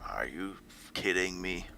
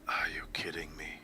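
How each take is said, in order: First: A weak attempt at a put-on character voice. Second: A stronger attempt at a put-on character voice. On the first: The speaker calls it wrong. "I can't do a Witcher voice" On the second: The speaker calls it right. "I guess more like that"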